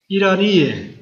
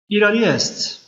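First: The word ends with a plain -e sound. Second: The word ends with an -est sound. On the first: This is the everyday spoken form. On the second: This is the written-language form.

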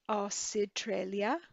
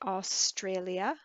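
First: A vowel sound separates the s and t. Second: The s and t are said together. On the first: "to have some kind of a vowel sound between an S and a T" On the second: "in English, we would say Australia"

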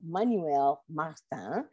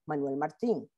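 First: The name is said with a French pronunciation. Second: The name is said with a Spanish pronunciation. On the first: "pronounced Manuel Martin's name a la française" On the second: "as opposed to al español"

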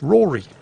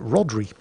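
First: No d sound is heard in the middle. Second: A d sound is heard in the middle. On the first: The speaker calls it right. "the D is silent. So it's pronounced Rory" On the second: The speaker calls it wrong. "they pronounce it Rodri"

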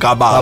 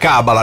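First: The stress is on the second syllable. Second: The stress is on the first syllable. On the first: The speaker calls it wrong. "non cabala" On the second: The speaker calls it right. "si dice cabala"

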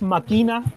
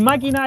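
First: The stress is on the second syllable. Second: The stress is on the first syllable. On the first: "si no le pongo el tilde ... Sería palabra grave" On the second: "máquina es esdrújula"

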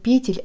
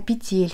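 First: The stress is on the first syllable. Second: The stress is on the second syllable. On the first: The speaker calls it wrong. "Не петель" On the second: The speaker calls it right. "а петель"

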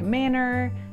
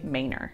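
First: It is said the way outsiders pronounce it. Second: It is said the way Austin locals pronounce it. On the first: The speaker is not from Austin. The speaker calls it wrong. "This looks like manor" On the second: The speaker is from Austin. The speaker calls it right. "When you're talking about this word, you say manor"

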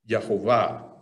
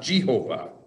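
First: The name begins with a Y sound. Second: The name begins with a J sound. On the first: The speaker calls it right. "Use the Y" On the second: The speaker calls it wrong. "not Jehovah"

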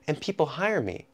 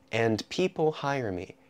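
First: Fast, with 'and' reduced to an M sound. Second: Slow, with 'and' said fully, including the D. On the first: "So it becomes M people" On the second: "if you're speaking slowly, ... now suddenly I'm saying every letter in the word"

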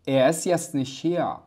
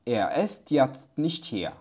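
First: The final t sounds of the words are dropped. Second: The final t sounds of the words are pronounced.

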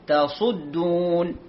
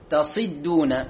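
First: The vowel after the s is u. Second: The vowel after the s is i. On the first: The speaker calls it right. "إذن الصحيح لم تصدون" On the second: The speaker calls it wrong. "البعض لهجة ينطق الصاد مكسورة"

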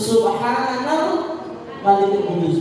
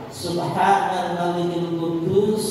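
First: The phrase is high-pitched and drawn out. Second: The phrase is said at a low pitch.

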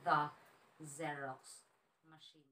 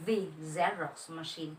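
First: The word 'the' is said as 'thuh'. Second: The word 'the' is said as 'thee'. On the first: The speaker calls it right. "pero the Xerox machine" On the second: The speaker calls it wrong. "Hindi po siya the Xerox machine"

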